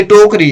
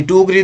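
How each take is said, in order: First: टोकरी with a clear long o after ट; "TOH-kree" for टोकरी; correct pronunciation. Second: टोकरी misread as "tukri"; short u in place of the o in टोकरी; wrong pronunciation. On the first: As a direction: say टोकरी as "tokri", o in the first syllable. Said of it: "तो टोकरी ऐसे होती है". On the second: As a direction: say टोकरी wrongly as "took-ree". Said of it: "ये टोकरी नहीं होता". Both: Shown as a demonstration.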